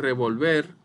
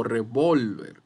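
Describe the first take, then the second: First: Revolver with the final "ver" stressed, raised and loud; stress on last syllable. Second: Revolver with "vol" stressed and drawn out, then falling; stress on middle syllable. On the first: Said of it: "puede sonar de diferentes maneras". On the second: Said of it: "no revólver". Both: Shown as a demonstration.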